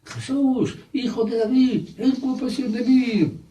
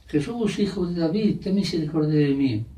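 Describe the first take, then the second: First: High-pitched, insistent pleading cry; acted beggar's cry pushed right up high; crying out harder. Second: Acted beggar's call, falling at the end; mock calling out. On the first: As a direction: call out desperately over the crowd's objections. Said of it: "aún gritaba más". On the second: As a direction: call for mercy at moderate volume. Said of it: "empezó a gritar".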